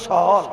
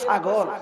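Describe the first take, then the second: First: The word is said without its middle sound. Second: The word is said with its middle sound. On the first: "মাঝখানে একটা অক্ষর বাদ" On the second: "আমরা গিয়ে না কই ছাগল"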